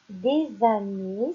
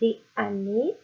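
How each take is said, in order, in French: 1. Une liaison en z relie les deux mots. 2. Les mots sont prononcés sans liaison en z. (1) "c'est plus joli de dire des années, c'est plus facile à prononcer et ça s'appelle la liaison" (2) "C'est pas très joli de dire des années"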